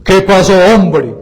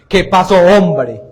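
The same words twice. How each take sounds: First: Louder, forceful imitation of a priest; harder priest imitation. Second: Slow, louder imitation of a priest; imitating the priest. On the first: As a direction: punch it out hard, mimicking the priest. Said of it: "No, no, más duro". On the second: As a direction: draw it out loudly, mimicking the priest. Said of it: "Él dice así".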